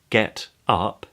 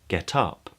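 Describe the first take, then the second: First: The two words are said separately. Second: The final consonant links into the next vowel.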